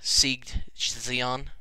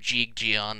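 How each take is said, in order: First: The words begin with an s sound. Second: The words begin with a j sound. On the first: "I don't know how you pronounce it" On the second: "they always go Jeeg Jion ... S's are S's and Z's are G's"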